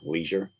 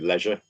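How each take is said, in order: First: It is said in an American accent. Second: It is said in a British accent.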